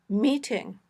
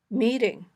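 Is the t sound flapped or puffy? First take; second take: puffy; flapped. First: The t is a clear puff of air. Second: The t is a quick voiced d-like tap. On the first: "a puffy t" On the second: "this flapped t"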